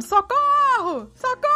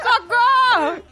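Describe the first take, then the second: First: High, very slow parrot cry of socorro; a parrot shrieking for help from a shut flat; parrot screaming for help. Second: High, very slow drawn-out parrot squawk; the co-host mimicking the parrot, laughing; parrot cry for help. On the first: Retold or imitated. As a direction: squawk it out like a trapped parrot. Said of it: "Uma voz gritando". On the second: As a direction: stretch socorro like a parrot.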